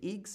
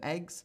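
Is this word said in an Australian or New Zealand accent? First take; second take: New Zealand; Australian. First: It is said in a New Zealand accent. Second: It is said in an Australian accent. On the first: "They say eggs" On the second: "instead of eggs"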